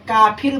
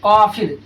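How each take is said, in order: First: The word begins with a front k sound. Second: The word begins with a deep throaty q sound. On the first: The speaker calls it right. "जब काफिर बोला जा रहा है तो छोटी काफ का इस्तेमाल" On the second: The speaker calls it wrong. "बड़ी काफ बोली जा रही है, जो कि गलत है"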